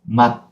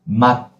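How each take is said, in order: First: The final consonant is closed and cut short. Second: The same.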